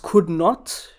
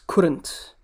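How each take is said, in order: First: It is said as two separate full words. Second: It is said as one shortened word. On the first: "The full version or the expanded version is could not" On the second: "when you simplify it's couldn't"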